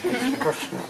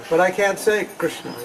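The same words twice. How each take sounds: First: "Krishna" said high and soft with a clear "kr" cluster; correct Krishna. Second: "Krishna" said as "Kisna", dropping the r; the devotee fumbling "Krishna"; mispronounced Krishna. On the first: Correcting the devotee, a high soft "Krishna". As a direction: model the right "Krishna", pitched up. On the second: Devotee who can't manage it, a mumbled "Kisna". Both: Shown as a demonstration. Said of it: "No, it's not Krishna".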